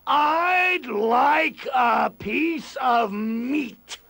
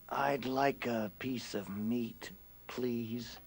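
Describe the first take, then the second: First: It is said very loudly, booming. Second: It is said softly and quietly.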